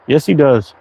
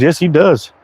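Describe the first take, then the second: First: He stressed, falling after. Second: Does stressed and falling. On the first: Agreeing about Hibley's frames, he stressed. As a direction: lean on the word he. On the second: Agreeing about Hibley's frames, does stressed. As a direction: lean on the word does. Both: Shown as a demonstration. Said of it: "repeated with shifted stress".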